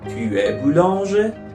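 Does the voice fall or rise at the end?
rise. The voice rises at the end. It asks an informal question.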